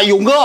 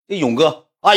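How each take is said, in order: First: High imitated hail; mock called greeting. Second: Said in the usual way. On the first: Little brother greeting each gang brother, mock shout. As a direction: call the name out high, as if reporting. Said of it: "过去大喊一声".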